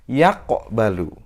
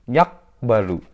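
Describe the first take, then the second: First: The middle consonant ends with a slight echoing bounce. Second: The middle consonant stops flat without any bounce. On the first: The speaker calls it right. "Yang betul yaqbalu" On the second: The speaker calls it wrong. "Salah karena tidak dipantulkan"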